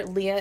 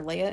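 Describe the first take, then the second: First: Leia pronounced LEE-uh; first syllable of Leia rhymes with "see". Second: Leia pronounced LAY-uh; first syllable of Leia rhymes with "day". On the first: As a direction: say Leia like the name Leah. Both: Shown as a demonstration. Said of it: "how I'm pronouncing her name".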